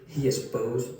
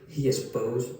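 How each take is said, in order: Both takes have the same delivery.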